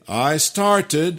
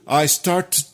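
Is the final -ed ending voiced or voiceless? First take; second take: voiced; voiceless. First: The ending of started is voiced. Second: The ending of started is voiceless. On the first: The speaker calls it right. "on peut dire" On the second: The speaker calls it wrong. "essayons la deuxième façon sourde"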